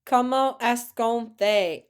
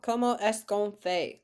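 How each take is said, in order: First: "Comment est-ce qu'on fait" said slowly and clearly; teacher modelling the French answer; model answer. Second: Said in the usual way. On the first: Shown as a demonstration. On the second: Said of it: "Très bien".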